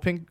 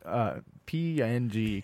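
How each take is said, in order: First: It is said as one word, ping. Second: It is spelled out as three letters. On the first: "I say ping" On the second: "I just kind of default to the actual letters"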